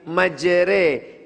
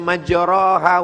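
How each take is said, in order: First: The vowel after r is bent toward e. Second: The vowel after r is a plain open a. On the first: The speaker calls it right. "miring, condong" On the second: The speaker calls it wrong. "Dia tidak dibaca"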